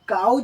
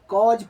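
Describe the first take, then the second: First: The vowel sounds like 'ow' in 'cow'. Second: The vowel sounds like 'aw' in 'saw'. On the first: The speaker calls it wrong. "इसको काउज नहीं पढ़ना है" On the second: The speaker calls it right. "कॉज पढ़ना है"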